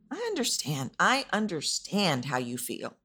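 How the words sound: The word understand carries clear stress. The speaker seems to genuinely connect with the listener's feelings. The speaker calls it right. "adding a little emphasis on what is important, which is understand"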